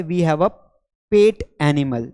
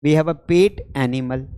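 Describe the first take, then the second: First: Said in the usual way. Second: "We have a pet animal" said very slowly, each word spaced out; slow, deliberate repeat. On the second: Shown as a demonstration. Teacher repeats the sentence slowly for students to copy.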